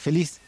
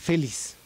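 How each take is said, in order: First: The stress is on the last syllable. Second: The stress is on the first syllable. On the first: The speaker calls it right. "Pero es feliz" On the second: The speaker calls it wrong. "si fuera grave sería feliz"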